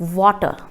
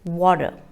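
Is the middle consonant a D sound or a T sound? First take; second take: T sound; D sound. First: The middle consonant is a clear T sound. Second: The middle consonant is a soft D sound. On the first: The speaker calls it wrong. "It is not water" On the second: The speaker calls it right. "ta sound is changed into da sound"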